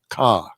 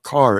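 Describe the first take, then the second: First: The final r is dropped, Boston-style. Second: The final r is pronounced.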